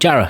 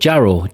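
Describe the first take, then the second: First: It is said locally, ending in an 'uh' sound. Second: It is said carefully, ending in an 'oh' sound. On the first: It is how local people say it. "We call it Jarrah, where I'm from ... we just dropped the O W" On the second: It is said so outsiders can understand it. "I'll have to enunciate it correctly so people can understand me"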